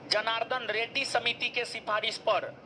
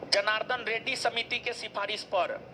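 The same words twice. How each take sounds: No difference in how they are said.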